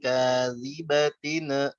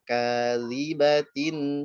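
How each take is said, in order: First: The final nasal bounces with an extra echoing syllable. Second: The final nasal ends cleanly without any bounce. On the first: The speaker calls it wrong. "Jangan ... mantula mantula" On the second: The speaker calls it right. "Dia dibaca jelas ... dan tidak mantul"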